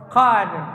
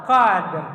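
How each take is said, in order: Both takes have the same delivery.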